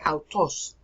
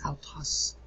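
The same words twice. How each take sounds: First: The word carries a plain stress accent. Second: The pitch falls across the accented vowel. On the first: The speaker calls it wrong. "They say autos. It isn't autos" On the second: The speaker calls it right. "It's autos. ... This is a falling accent. Your voice falls"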